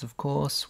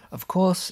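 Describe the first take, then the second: First: Said in the usual way. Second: High, rising sarcastic of course. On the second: Real, not acted. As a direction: toss it off with irony. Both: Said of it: "of course (contrast)".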